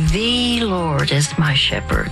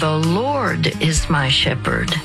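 First: The stress is on "The". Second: The stress is on "Lord".

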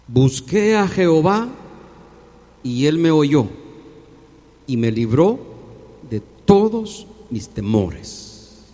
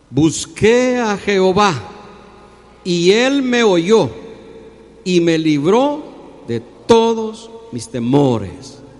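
First: It is read at normal, moderate volume. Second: It is read very loudly and forcefully.

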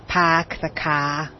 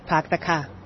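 First: Each word is said separately and overemphasized. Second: The words run together with no break.

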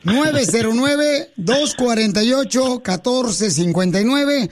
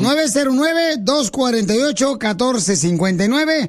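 First: The number is said at a slow pace. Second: The number is said at a fast pace.

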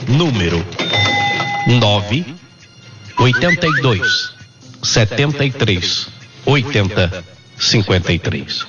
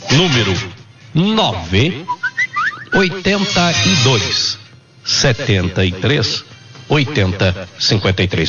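No difference in how they are said.

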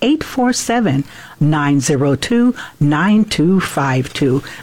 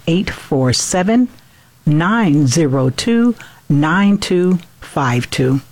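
First: The number is said at normal, faster speed. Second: The number is said more slowly.

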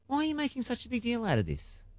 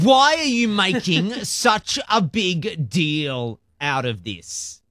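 First: It is asked in a curious, gentle tone. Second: It is asked in a dismissive, annoyed tone.

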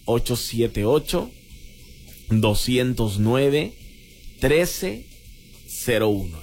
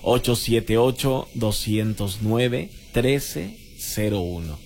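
First: The number is said slowly. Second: The number is said fast.

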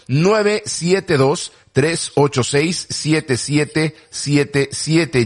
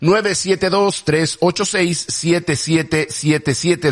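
First: The number is said more slowly. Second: The number is said at normal speed.

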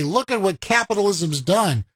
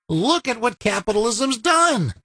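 First: It is said in a critical, disapproving tone. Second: It is said in an admiring, proud tone.

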